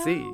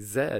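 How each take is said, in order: First: The letter is said the American way. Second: The letter is said the British way.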